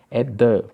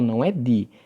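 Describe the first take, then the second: First: The vowel is a short 'uh' sound. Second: The vowel is a long 'ee' sound. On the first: It is used before a consonant. The speaker calls it right. "Aí já muda o som" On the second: It is used before a vowel. The speaker calls it wrong. "não é"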